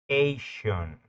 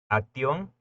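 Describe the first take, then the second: First: The ending is said like English 'Asian'. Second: The ending is read with Spanish vowel sounds. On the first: The speaker calls it right. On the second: The speaker calls it wrong. "si lo pronunciáramos en español"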